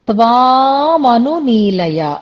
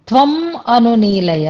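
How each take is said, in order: First: The first vowel is held long. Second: The first vowel is kept short. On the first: The speaker calls it right. "త్వాం అనేది అక్కడ దీర్ఘాంతంగా ఉండాలి" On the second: The speaker calls it wrong. "చదివినప్పుడు ఒకసారి త్వం అను నీలయ అని వచ్చింది"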